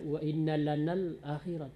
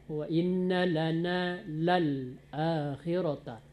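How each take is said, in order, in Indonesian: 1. Suku kata 'lal' dihilangkan, sehingga lana langsung menyambung ke akhirat. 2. Suku kata 'lal' jelas diucapkan sebelum akhirata. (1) "Tadi terdengar" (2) "Lana lal"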